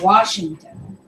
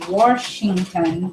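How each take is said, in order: First: It is said without an R sound. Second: It is said with an added R, Warshington.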